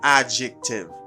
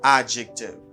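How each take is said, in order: No difference in how they are said.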